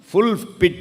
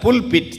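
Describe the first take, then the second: First: The word starts with an f sound. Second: The word starts with a p sound. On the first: It sounds like a word meaning a pit that is completely full. The speaker calls it wrong. "ஃபுல் பிட் இல்லை" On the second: It names the preaching platform in a church. The speaker calls it right.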